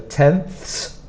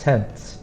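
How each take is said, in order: First: The th sound is strong and forceful. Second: The th sound is soft and light. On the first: The speaker calls it wrong. "you don't make it a strong sound like that" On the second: The speaker calls it right. "So it's soft"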